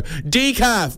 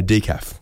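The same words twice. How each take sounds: First: High, carrying barista holler; mock loud announcement. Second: Said in the usual way. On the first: Barista exposes the decaf drinker, high mock announcement. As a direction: call it out to shame the customer. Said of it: "they say loud enough so that the bush turkeys". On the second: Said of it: "you go up to the counter and you go".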